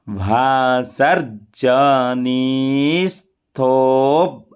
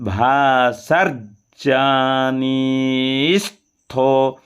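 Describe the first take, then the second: First: भासर्जनिस्थो slowly with "स्थो" together; joined st. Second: भासर्जनिस्थो as "भासर्-जनिस्थो", very slow; slow syllabic split. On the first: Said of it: "सा और ता का उच्चारण साथ हो". (भासर्जनिस्थो में स्थ साथ बोलें) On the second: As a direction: stretch भासर्जनिस्थो, r then j. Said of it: "पहले रा फिर जा". (भासर्जनिस्थो धीरे, र के बाद ज) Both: Shown as a demonstration.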